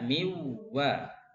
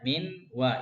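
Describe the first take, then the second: First: The n merges directly into the w. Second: The n is pronounced clearly before the w. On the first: "Langsung nunnya langsung masuk ke wow" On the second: "Aslinya kan min wa ya, min wa idhar"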